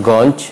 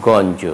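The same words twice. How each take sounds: First: গঞ্জ ending on bare consonant; dropped final vowel. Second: গঞ্জ ending in "jo"; গঞ্জ in two syllables; final vowel sounded. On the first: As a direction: say গঞ্জ as "gawnch". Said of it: "নয়". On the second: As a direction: say গঞ্জ as "gawn-jo". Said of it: "উচ্চারণ হবে". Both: Shown as a demonstration.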